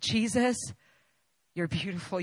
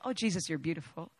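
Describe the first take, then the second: First: It is said with deep, heartfelt earnestness. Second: It is said lightly and casually.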